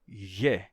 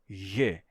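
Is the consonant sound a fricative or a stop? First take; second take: fricative; fricative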